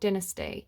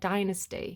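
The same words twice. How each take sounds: First: The word is said with a British pronunciation. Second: The word is said with an American pronunciation. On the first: "I've always been taught dynasty" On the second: "[name] in that song pronounces it dynasty"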